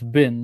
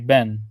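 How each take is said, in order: First: It is said the Maltese and Arabic way. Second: It is said the North African way. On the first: "in Maltese we say for the word for sun is bin" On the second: "North Africa ... they don't say bin, but they say ben"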